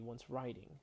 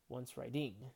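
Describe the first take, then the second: First: The stress is on the first syllable. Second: The stress is on the second syllable. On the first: The speaker calls it right. "Instead, it'd be once writing" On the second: The speaker calls it wrong. "Where the stress would fall on this ding syllable"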